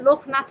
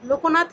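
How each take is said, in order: First: No vowel is said after the k. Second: An o vowel is said after the k. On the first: The speaker calls it right. "উচ্চারণে লোকনাথ হচ্ছে" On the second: The speaker calls it wrong. "লোকনাথ না হয়ে"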